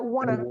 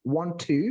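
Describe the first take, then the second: First: The words blend into one reduced word. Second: Both words are said fully and separately.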